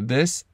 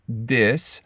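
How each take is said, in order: First: The word begins with a th sound. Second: The word begins with a d sound. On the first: "the th" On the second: "turning into a duh"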